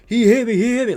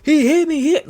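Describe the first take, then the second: First: Higher, louder mocking whine, a put-on voice. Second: Much higher, louder mock shriek of complaint; football player mockingly screaming that he got hit. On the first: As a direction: imitate a flopping player begging for the call. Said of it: "looking up around like". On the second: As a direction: play a whiny player crying to the ref. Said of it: "get up and scream".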